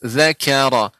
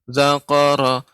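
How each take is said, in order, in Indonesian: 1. Bunyinya ringan, ada udara yang keluar. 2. Bunyinya dalam, seperti q. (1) "harus lebih diperjelas... di antara sifat ka adalah mengalirnya udara" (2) "jangan sampai zaka, zakara, semirip ke kaf, uh, ke qaf"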